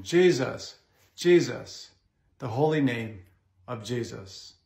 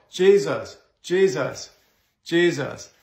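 First: Reverent devotion. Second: Jesus called out forcefully, each one stressed; forceful commanding call. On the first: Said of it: "Say it with reverence and devotion". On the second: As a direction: proclaim Jesus firmly, one after another. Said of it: "we said it all the more". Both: Shown as a demonstration.

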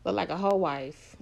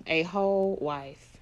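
First: Said in the usual way. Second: Whole drawn out slowly and leaned on; stress on whole. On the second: Real, not acted. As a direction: stretch out whole for emphasis.

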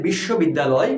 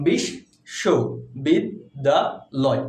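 First: Said in the usual way. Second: "বিশ্ববিদ্যালয়" very slow, in five separate pieces: বিশ-শ-বিদ-দা-লয়; থেমে থেমে উচ্চারণ. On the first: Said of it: "বিশ্ববিদ্যালয়কে কীভাবে উচ্চারণ করব". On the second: Shown as a demonstration. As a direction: halt after each syllable of "বিশ্ববিদ্যালয়". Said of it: "কয়বার থামলাম?". ("বিশ্ববিদ্যালয়" পাঁচবার থেমে, অক্ষরে অক্ষরে ভেঙে বলা)

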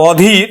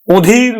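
First: অধীর as "aw-dheer"; open initial vowel. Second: অধীর as a drawn-out "o-dheer"; closed initial o. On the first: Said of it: "অ এর মতোই উচ্চারণ হবে". (অধীর-এর অ বিবৃত উচ্চারণ) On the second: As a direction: round the first vowel of অধীর to o. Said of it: "তখন কিন্তু সংবৃত উচ্চারণ হবে". (অধীর-কে "ওধীর" উচ্চারণ) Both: Shown as a demonstration.

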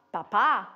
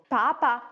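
First: "Papa" stressed as paPÀ; final-syllable stress. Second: "Papa" stressed as PApa; first-syllable stress. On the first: Teacher contrasting similar words, stress on last syllable of "Papa". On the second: Teacher contrasting similar words, stress on first syllable of "Papa". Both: Shown as a demonstration. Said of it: "wie eben Papa und Papa".

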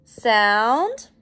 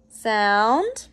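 First: Said in the usual way. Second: The word whispered on a rising tune; whispered sound. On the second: Shown as a demonstration. Teacher to class, modelling the sound in a whisper. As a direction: breathe it out as a whisper, no voice. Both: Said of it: "Next one".

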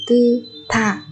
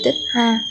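First: "tư tha" with open "tư" and aspirated "tha"; correct linked reading. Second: "tức ha" with closed "tức" and separate "ha"; wrong unlinked reading. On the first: Teacher correcting learners, linked "tư tha". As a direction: move the t over, puffed into "tha". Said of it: "mà là". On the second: Teacher warning learners, showing unlinked "tức ha". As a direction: stop "tức" short of "ha". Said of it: "Không phải". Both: Shown as a demonstration.

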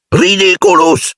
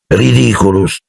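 First: High, drawn-out shout; cried-out spell. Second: Casual, understated spell; almost lazy. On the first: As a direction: cast it with a high, determined cry. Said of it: "gridò". (incantesimo gridato con decisione) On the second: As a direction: toss off the spell almost lazily. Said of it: "quasi pigramente". (incantesimo detto quasi pigramente) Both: A narrator's reading.

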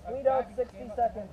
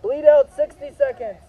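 First: Said in the usual way. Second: Called out loud and high; loud callout. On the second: Real, not acted. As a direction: announce it loud to the field. Medic calling bleed-out time.

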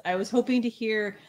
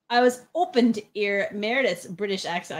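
First: Said in the usual way. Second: Cockney with dropped h's, "open to 'ear"; attempted Cockney accent. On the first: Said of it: "ear is a Cockney accent". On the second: Reading out a viewer's request, attempted Cockney accent. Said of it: "Like, ear is a Cockney accent".

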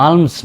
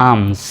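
First: আর্মস as "aalms", with l voiced; mistaken sounded l. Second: আর্মস as "aams", no l; silent l. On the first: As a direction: put an l before the m in আর্মস. (ল উচ্চারণ করে আলমস) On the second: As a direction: drop the l, long vowel into ms in আর্মস. (ল নীরব রেখে আমস) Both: Shown as a demonstration. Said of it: "আর্মস নয়".

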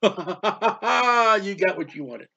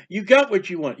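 First: Slow, mocking laugh through the line; drawn-out sardonic laugh. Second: Said in the usual way. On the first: Real, not acted. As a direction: chuckle it out like a told-you-so. Repeated rebuke with laugh.

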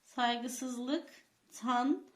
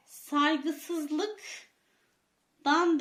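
First: "Saygısızlıktan" with a rising tune; questioning rise on "Saygısızlıktan"; form actually said. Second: "Saygısızlıktan" stretched out very slowly; slow, careful "Saygısızlıktan"; correct form, slowly. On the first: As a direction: say "Saygısızlıktan" as the form found in the text. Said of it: "ne demiş". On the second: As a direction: spell out "Saygısızlıktan" syllable by syllable. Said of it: "demesi lazımken". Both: Shown as a demonstration.

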